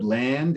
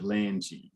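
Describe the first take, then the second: First: The word ends on a hard consonant. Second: The word ends with an added vowel sound. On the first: The speaker calls it right. "land instead of langy" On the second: The speaker calls it wrong. "there's no land G"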